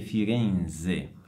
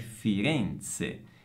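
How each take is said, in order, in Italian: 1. La z è sonora, come dz. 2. La z è sorda, come ts. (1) "quindi è sbagliato dire Firenze" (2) "La forma corretta è Firenze"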